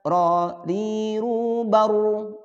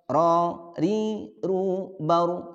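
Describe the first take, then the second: First: The r is trilled for too long. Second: The r is trilled only briefly. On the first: The speaker calls it wrong. "Itu kelebihan ro-nya" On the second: The speaker calls it right. "Nah, seperti itu"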